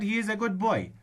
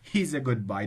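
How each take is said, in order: First: He and is are said as two full words. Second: He and is are joined into he's. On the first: The speaker calls it right. "You should pronounce it" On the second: The speaker calls it wrong. "put apostrophe ace with he and"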